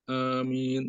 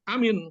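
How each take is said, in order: First: Both vowels in the word are held long. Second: Both vowels in the word are said short. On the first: The speaker calls it right. "A-nya dua, min-nya dua" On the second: The speaker calls it wrong. "a sama min-nya pendek"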